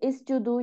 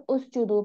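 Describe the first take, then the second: First: The word begins with an i vowel. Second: The word begins with a u vowel. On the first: The speaker calls it wrong. "नहीं पढ़ेंगे" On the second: The speaker calls it right. "उस जुदू पढ़ेंगे"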